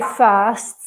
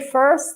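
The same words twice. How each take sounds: First: It is said with no R sound. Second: It is said with an Irish R sound. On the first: "So I would say first" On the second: "someone from Ireland might say first"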